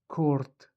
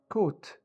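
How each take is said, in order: First: It is said with an r before t. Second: It is said without an r sound.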